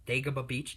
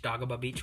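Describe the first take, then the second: First: "Dagobah" said DAY-guh-buh; "Dagobah" opening like the word "day"; alternative pronunciation. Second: "Dagobah" said DAH-guh-bah; "Dagobah" opening with "dah"; alternative pronunciation. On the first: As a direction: say "Dagobah" with a long "day" first syllable. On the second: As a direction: say "Dagobah" with an open "ah" first syllable. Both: Shown as a demonstration. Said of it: "whatever you wanna call it".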